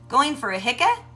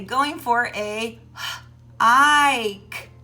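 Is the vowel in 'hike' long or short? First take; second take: short; long. First: The vowel in hike is short. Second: The vowel in hike is long. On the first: The speaker calls it wrong. "we don't say ik" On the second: The speaker calls it right. "it makes the vowel say its name"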